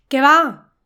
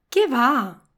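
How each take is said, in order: First: The stress falls on the second word. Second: The stress falls on the first word. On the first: A warning that something is being thrown. "esta entonación aquí indica un aviso a otra persona" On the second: A flat denial, no way. "Es un no rotundo cuando la entonación es esta"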